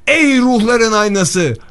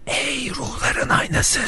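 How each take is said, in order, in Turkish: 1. Yüksek sesle, neredeyse bağırarak söyleniyor. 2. Normal konuşma sesiyle söyleniyor.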